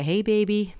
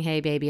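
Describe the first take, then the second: First: Mock American flirt. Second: Said in the usual way.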